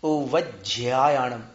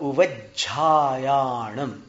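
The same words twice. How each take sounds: First: A 'y' glide is added after the 'jh'. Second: A plain 'jha' is said with no glide. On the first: The speaker calls it wrong. "और एक य मिला देते थे" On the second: The speaker calls it right. "झ में य नहीं मिलाना, सीधा झा बोलना है"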